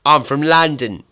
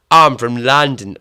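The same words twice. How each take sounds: First: Loud, higher, botched London Cockney; a hammed-up Cockney "I'm from London" that misses; failed Cockney accent. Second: Loud, hammed-up London Cockney retry; Danny Dyer Cockney. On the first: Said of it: "That was pish". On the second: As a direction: push the Cockney harder, much louder. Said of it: "why do they all sound like Danny Dyer".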